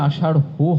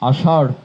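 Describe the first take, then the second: First: The word ends with an added 'ho' syllable. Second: The word ends on the consonant, no added syllable. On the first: The speaker calls it wrong. "কোনোভাবে আষাঢ় হো হবে না" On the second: The speaker calls it right. "হ হসন্ত হয়ে হবে আষাঢ়"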